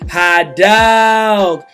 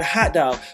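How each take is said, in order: First: It is said with stylish swagger and flair. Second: It is said plainly, with no flair. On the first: "that gives it a whole new level of artistic uh, input" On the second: "it's just the word"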